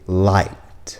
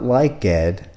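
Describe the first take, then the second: First: The ending is a plain T sound. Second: The ending is an extra 'ed' syllable. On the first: The speaker calls it right. "it's going to be light" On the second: The speaker calls it wrong. "It's not like Ed"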